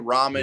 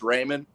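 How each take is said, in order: First: The first vowel sounds like 'ah'. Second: The first vowel sounds like 'ay'. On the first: This is how people who don't know say it. "But if you say ramen, it, it doesn't offend me" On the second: This is how the family says the name. "the proper pronunciation is Raymond"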